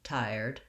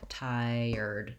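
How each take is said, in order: First: It is said quickly, almost as one syllable. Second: It is said slowly, drawn out over two syllables. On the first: The speaker calls it right. "We almost say this, this word as one syllable" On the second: The speaker calls it wrong. "it's not really drawn out like tired too much"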